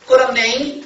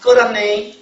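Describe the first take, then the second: First: "끓었네" closes on a high nasal 이 sound; nasal 이 ending. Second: "끓었네" ends on a high, clear 이 sound; ending as 이. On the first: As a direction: let the end of "끓었네" ring through the nose. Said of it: "콧소리예요". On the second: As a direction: sing the last syllable of "끓었네" up as a plain 이. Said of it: "이로 정해야 돼?". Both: Shown as a demonstration.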